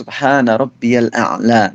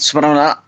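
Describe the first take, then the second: First: The phrase is said at a calm, unhurried pace. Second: The phrase is rushed out very quickly. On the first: The minimum required stillness in prayer is reached. The speaker calls it right. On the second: The required stillness in prayer is not reached. The speaker calls it wrong.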